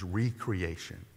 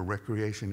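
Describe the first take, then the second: First: The word begins with a long 'ree' sound. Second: The word begins with a short 'rek' sound. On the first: Being made new again. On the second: Leisure and fun activities.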